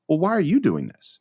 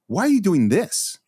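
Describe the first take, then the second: First: It challenges the person for being the one acting. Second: It sounds disapproving of the action itself.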